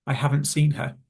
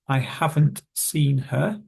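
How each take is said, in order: First: "haven't" loses its t before "seen"; quick connected speech. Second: "haven't" said slowly with its final t; each word of "haven't seen her" separate and slow; careful full form. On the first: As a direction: run "haven't seen her" together quickly. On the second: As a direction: enunciate "haven't" fully, word by word. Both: Shown as a demonstration. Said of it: "If we were to say it quickly".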